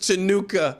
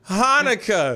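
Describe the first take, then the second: First: The word begins with a 'ch' sound. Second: The word begins with an 'h' sound. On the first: The speaker calls it wrong. "who says Chinooka?" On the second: The speaker calls it right. "It's Hanukkah"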